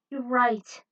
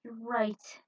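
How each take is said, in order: First: Said in the usual way. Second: Whisper. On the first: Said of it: "calmed down". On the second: Acted. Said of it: "calmed down as she swallowed".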